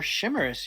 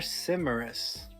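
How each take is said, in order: First: The word begins with a 'sh' sound. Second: The word begins with an 's' sound. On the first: The speaker calls it wrong. "You're saying sh- shimmerous, like shimmery" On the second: The speaker calls it right. "There's no H. It's simmerous, like simmering"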